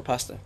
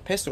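First: "pasta" with an ah as in father, said softly; broad-a pronunciation. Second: "pasta" with the first a as in cat, said softly; short-a pronunciation. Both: Shown as a demonstration. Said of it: "What's the right way".

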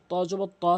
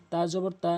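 First: "ত" full-mouthed, with a rounded vowel; full, heavy t. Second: "তা" light, with an open a; thin, light t. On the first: Teacher contrasting letters, "ত" heavy and rounded. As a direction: thicken "ত" towards "to". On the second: Teacher contrasting letters, "তা" light and thin. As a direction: keep "তা" thin and unrounded. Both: Shown as a demonstration. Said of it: "হরফের পার্থক্যগুলো".

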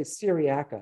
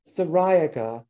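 First: "Syriaca" as seer-ee-ACK-uh; stress on A. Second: "Syriaca" as suh-RYE-uh-kuh; stress on RI. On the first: Lecturer offering the alternative way to say it, seer-ee-ACK-uh. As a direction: stress the third syllable of "Syriaca", short a. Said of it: "you could say Syriaca". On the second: Lecturer giving his own way of saying milkweed's epithet, suh-RYE-uh-kuh. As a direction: stress the second syllable of "Syriaca" with a long eye. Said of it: "is how I say the". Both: Shown as a demonstration.

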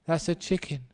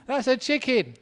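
First: Said in the usual way. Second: Much higher, louder hammed-up wife; high mock wife. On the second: Wife insisting to her husband it's a chicken, high mock voice. Repeats wife's line after laughter.

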